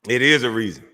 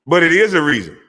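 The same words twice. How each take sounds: First: Said in the usual way. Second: "is" pushed up and louder; stress on IS. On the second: Shown as a demonstration. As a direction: hit the word "is" with weight. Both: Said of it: "It ain't, but it is".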